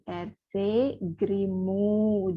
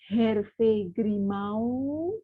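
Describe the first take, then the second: First: The last vowel is a single plain o. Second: The last vowel glides as a diphthong. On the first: The speaker calls it right. "tapi R C Grimu" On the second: The speaker calls it wrong. "Jadi bukan Hervé Grimau"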